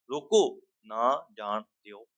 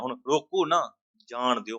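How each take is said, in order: First: ਰੋਕੋ ਨਾ ਜਾਣ ਦਿਓ very slow, stress on ਰੋਕੋ, pause after it; other comma reading. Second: ਰੋਕੋ ਨਾ ਜਾਣ ਦਿਓ said slowly, stress on ਨਾ, then a break; comma reading. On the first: Teacher contrasting the comma after ਰੋਕੋ for pupils. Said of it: "ਹੁਣ ਦੋਨਾਂ ਵਿੱਚ ਫਰਕ ਕੀ ਹੈ". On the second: Teacher showing pupils the comma after ਨਾ, pausing there. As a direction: lean on ਨਾ, then pause before ਜਾਣ ਦਿਓ. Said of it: "ਇੱਥੇ ਕੌਮਾ ਲੱਗਿਆ". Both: Shown as a demonstration.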